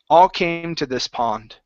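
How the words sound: The word pond carries the strongest stress. The speaker calls it right. "We want to come up a little bit more on pond"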